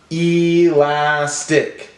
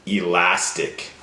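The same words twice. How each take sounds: First: "Elastic" slowly, each syllable drawn out; broken into syllables. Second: Said in the usual way. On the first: Shown as a demonstration. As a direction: stretch "Elastic" into e, las, tic. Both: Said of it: "Break it up".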